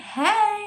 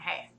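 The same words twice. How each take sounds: First: The greeting sounds bright and enthusiastic. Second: The greeting sounds flat and unenthusiastic.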